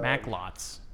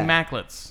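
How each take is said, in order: First: The second syllable has a full, stressed O. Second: The second syllable has a lazy, reduced vowel. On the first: The speaker is consciously thinking about the word. "you're putting the emphasis on it" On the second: The speaker says it without thinking about it. "when I don't think about it, I say Macklets"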